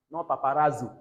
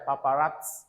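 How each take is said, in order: First: "paparazzo" with a plain Z, said loud; the wrong Z version of "paparazzo". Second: "Paparazzo" with a TS sound in the middle. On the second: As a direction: put a T before the Z in "Paparazzo". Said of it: "there is T there". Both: Shown as a demonstration.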